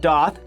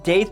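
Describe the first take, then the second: First: The vowel sounds like the one in goth. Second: The vowel sounds like the one in faith. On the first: The speaker calls it right. "just like uh, the word goth, but with a D" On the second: The speaker calls it wrong. "most commonly pronounced daith, but that's not actually correct"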